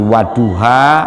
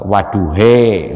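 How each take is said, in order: First: The final vowel is an open a sound. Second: The final vowel is an e sound.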